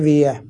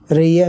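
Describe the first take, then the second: First: The word begins with a W sound. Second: The word begins with an R sound. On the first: This is how a person who cannot pronounce R says it. The speaker calls it wrong. "میگه ویه" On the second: This is the word the person intends to say. The speaker calls it right. "میخواد بگه ریه"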